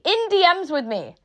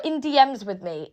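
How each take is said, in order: First: "D Ms" pitched up and stressed; emphatic repeat. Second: Said in the usual way. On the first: Real, not acted. Speaker pointing out where the farmers were, emphatic. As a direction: hit "D Ms" higher to drive it home.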